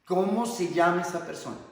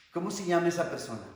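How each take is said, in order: First: Louder, higher, measured counselor's demand; insistent question. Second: Acted counselor asking quickly; raised pitch, quick probing question; brisk question. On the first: Acted. Counselor pressing someone who answered "nadie", insistent question. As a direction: press the question firmly, word by word. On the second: Counselor asking who is behind the suffering, brisk question.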